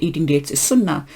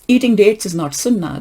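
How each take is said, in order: First: Said in the usual way. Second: "Eating" hit higher and louder, firm denial; "Eating dates" punched up, then settling firmly; emphatic correction. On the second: Real, not acted. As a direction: open forcefully on "Eating" to rebut the claim. Firmly contradicts the quoted claim.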